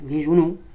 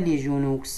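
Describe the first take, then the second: First: Genoux ends without any final consonant. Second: A final consonant is pronounced on genoux. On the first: The speaker calls it right. "Mais on ne le prononce pas aussi" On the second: The speaker calls it wrong. "On ne dit pas"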